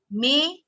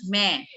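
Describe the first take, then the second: First: "Main" as "may", tight vowel, slow; closed Hindi vowel. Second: "main" as "meh", wide vowel, slow; open Hindi vowel. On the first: Teacher contrasting two Hindi words slowly, closed vowel. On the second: Teacher contrasting two Hindi words slowly, open vowel. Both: Shown as a demonstration. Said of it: "Like similar in Hindi".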